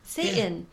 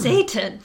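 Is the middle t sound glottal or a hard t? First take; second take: glottal; hard. First: The t is swallowed into a glottal catch. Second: The t is pronounced as a clear, hard t. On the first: It makes the character sound cute. The speaker calls it wrong. "kept pronouncing Satan, ... as Satan" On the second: It makes the character sound terrifying. The speaker calls it right. "I think we should give him a hard T"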